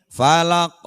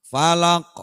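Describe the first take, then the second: Both takes have the same delivery.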